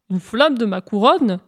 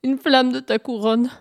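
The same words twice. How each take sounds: First: Astonished echo, swooping on the words; incredulous. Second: Small, pleading hare voice; timid request. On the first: Sun questions the hare's request, incredulous. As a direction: query it in disbelief. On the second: Hare timidly asks the sun for a flame, pleading. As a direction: ask meekly for a big favour. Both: Acted.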